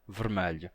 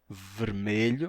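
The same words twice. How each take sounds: First: It is said in the Lisbon way, with an A sound. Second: It is said in the standard European Portuguese way.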